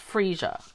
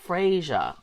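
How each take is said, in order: First: The first vowel sounds like 'ee'. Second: The first vowel sounds like 'ay'. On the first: "I say that Freesia" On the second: "Other people I'm hearing say Frasier, like that's an A"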